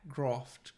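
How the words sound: It has a broad posh 'ah' vowel.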